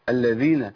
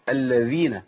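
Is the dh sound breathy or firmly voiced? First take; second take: voiced; voiced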